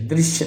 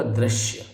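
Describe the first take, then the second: First: दृश्य with an "i" sound; wrong form. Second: दृश्य with an "a" sound, "drashya"; correct form. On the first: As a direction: say दृश्य as "drishya". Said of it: "दृश्य नहीं होगा". (दृश्य को "द्रिश्य" बोलें) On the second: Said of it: "ये होगा". (दृश्य को "द्रश्य" बोलें) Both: Shown as a demonstration.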